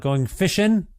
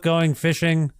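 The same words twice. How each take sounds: First: The endings are said as a clipped 'in'. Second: The endings are said with a full 'ing'. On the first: The speaker calls it right. "I should say" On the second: The speaker calls it wrong. "I mispronounced it"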